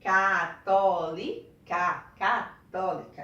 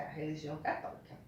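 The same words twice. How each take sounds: First: Católica drawn out slowly, louder, syllable by syllable; slow syllabified. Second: Said in the usual way. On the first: Shown as a demonstration. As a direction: spell out Católica slowly for children. (Católica bem devagar, silabando) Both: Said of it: "tem quatro sílabas".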